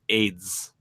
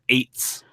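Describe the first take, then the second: First: The word ends with a soft D-like sound. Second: The word ends with a clear T sound. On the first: "she has that like weird sort of like Italianified accent" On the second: "if you pronounce it with my accent, where you have sort of a T in there"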